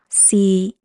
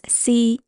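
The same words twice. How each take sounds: First: The syllable is said in tone three. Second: The syllable is said in tone one. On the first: "Tone three is C" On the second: "tone one is C"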